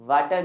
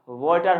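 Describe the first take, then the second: First: "वाटर" with a long aa, vaa-tar; wrong pronunciation. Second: "वाटर" with an o vowel, vo-tar; corrected pronunciation. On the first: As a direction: sound the A in "वाटर" as aa. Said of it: "वाटर नहीं होता". ("वाटर" में 'आ' की आवाज़) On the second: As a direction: turn the A in "वाटर" into o. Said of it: "sound ए नहीं". ("वाटर" को 'वॉटर' बोलें, 'ओ' की आवाज़) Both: Shown as a demonstration.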